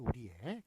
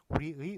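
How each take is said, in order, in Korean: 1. 마지막 모음은 'e'로 발음합니다. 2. 마지막 모음은 'ui'로 발음합니다. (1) "의나 에로 발음하는" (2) "의나 에로 발음하는"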